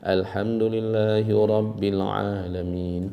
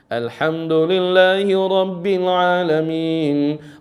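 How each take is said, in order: First: It is recited softly, barely audible. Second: It is recited loudly, like leading prayer.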